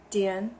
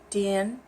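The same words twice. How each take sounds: First: The tone falls and then rises. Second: The same.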